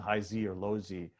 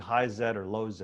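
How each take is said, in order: First: The letter Z is said the American way. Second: The letter Z is said the non-American way.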